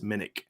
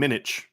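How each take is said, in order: First: The name ends with an 'ick' sound. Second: The name ends with an 'itch' sound. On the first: The speaker calls it right. "ick is I C K, but it is what it is. It's Minnick" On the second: The speaker calls it wrong. "because it's I C H, and that's the sound. I mean, sandwich"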